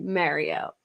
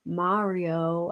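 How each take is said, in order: First: Mario said as "MARE-io"; own pronunciation. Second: Mario with open "ah", MAH-rio; unfamiliar standard pronunciation. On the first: Streamer contrasting their own way, local-vowel Mario. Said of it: "But I say it Mario". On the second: Streamer trying the weird-feeling way, open-vowel Mario. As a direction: carefully say Mario as "MAH-ree-oh". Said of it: "It's so weird saying it like that". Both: Shown as a demonstration.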